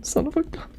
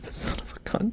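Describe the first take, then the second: First: High astonished. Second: Whispered. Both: Real, not acted. Stunned reaction before reading the letter.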